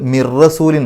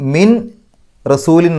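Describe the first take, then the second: First: The n sound merges fully into the r. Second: The n sound is clearly pronounced before the r. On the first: The speaker calls it right. "മിർ റസൂലിൻ എന്നാവും" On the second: The speaker calls it wrong. "ആ നൂനിൻ്റെ ശബ്ദത്തെ തൊട്ടടുത്ത അക്ഷരത്തിലേക്ക് ലയിപ്പിക്കണം"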